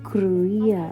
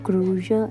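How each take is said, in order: First: The middle consonant is a y sound. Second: The middle consonant is an sh sound. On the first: The speaker calls it right. "അങ്ങനെയൊക്കെയാണ് അവർ pronounce ചെയ്തിട്ടുണ്ടായിരുന്നത്" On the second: The speaker calls it wrong. "പക്ഷേ ഇതിങ്ങനെയല്ല കേട്ടോ pronounce ചെയ്യുന്നത്"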